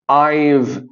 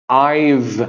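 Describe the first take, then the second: No difference in how they are said.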